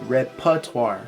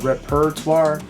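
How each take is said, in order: First: The middle R sound is left out. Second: The middle R sound is pronounced clearly. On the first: The speaker calls it right. "In American English, we don't even use that letter R. We pronounce it" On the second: The speaker calls it wrong. "We do not pronounce this R right here in the middle"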